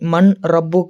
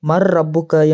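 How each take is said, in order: First: The n sound is kept before the r. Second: The n sound merges into a doubled r. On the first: The speaker calls it wrong. "என்று வாசிக்க கூடாது" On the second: The speaker calls it right. "என்று வாசிக்க வேண்டும்"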